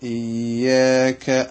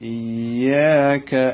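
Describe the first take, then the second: Both takes have the same delivery.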